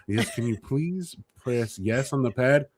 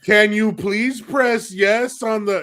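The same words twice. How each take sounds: First: Slow, polite imitation of mom's service voice; a light take on mom being patient with a client; customer service voice. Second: Slow, higher, louder repeat broken by laughter; holding back a laugh while repeating it patiently; mom trying to stay composed. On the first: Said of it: "with my mom's customer service voice". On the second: Retold or imitated. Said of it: "composed herself".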